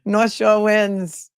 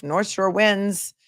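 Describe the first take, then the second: First: Broad Massachusetts accent, drawn out and higher. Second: Said in the usual way. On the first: Shown as a demonstration. Repeating a viewer's verdict after laughing, in a Massachusetts accent. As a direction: North Shore wins in slow, hammed-up Massachusetts vowels. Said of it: "with the Massachusetts accent". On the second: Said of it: "South Shore accent versus North Shore".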